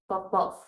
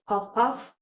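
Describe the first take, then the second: First: It is said with a Nigerian accent. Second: It is said in a plain, non-Nigerian accent.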